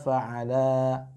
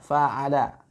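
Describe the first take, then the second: First: The final syllable la is drawn out long. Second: The final syllable la is kept short. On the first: It sounds like the separate word 'ala meaning on top. The speaker calls it wrong. "seakan-akan itu ala yang artinya di atas" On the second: It is one single word. The speaker calls it right. "Padahal itu satu rangkaian"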